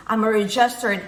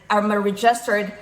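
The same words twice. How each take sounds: The two takes are said the same way.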